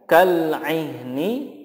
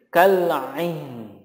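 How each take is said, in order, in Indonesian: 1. Kata ini berakhir dengan vokal i pendek. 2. Kata ini berakhir dengan konsonan n yang lembut.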